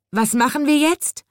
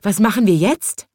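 First: High, pitiful wail; plaintive cry. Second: Said in the usual way. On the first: A narrator's reading. Soaked chimney sweep asking the birds, plaintive and high. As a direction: whimper it out, soaked and helpless. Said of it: "rief er kläglich".

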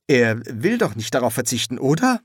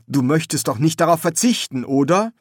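First: Said in the usual way. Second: Raised, louder coaxing with rising tag; coaxing appeal. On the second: Acted. Son urging his dead father to accept, coaxing appeal. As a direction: coax him, voice lifted.

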